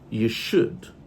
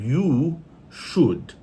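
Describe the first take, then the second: First: The vowel in should is reduced to schwa. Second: The vowel in should is full and not reduced. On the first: "So we say you should" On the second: "instead of you should"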